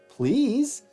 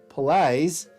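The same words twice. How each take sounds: First: It is said in a Californian accent. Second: It is said in an Australian accent.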